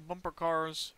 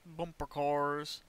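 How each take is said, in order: First: Said in the usual way. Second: Slow, drawn-out bumper cars. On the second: Shown as a demonstration. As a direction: stretch it out slowly.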